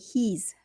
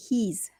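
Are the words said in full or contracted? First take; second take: contracted; contracted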